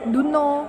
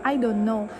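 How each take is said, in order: First: The phrase is said fast with sounds dropped. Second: Every sound of the phrase is fully pronounced. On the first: "di Singlish itu biasanya disebut do know" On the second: "di bahasa Inggris yang benar itu I don't know"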